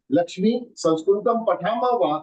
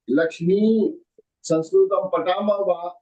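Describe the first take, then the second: First: The last vowel of Lakshmi is short. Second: The last vowel of Lakshmi is long. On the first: The speaker calls it right. "You are making it short" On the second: The speaker calls it wrong. "It cannot be"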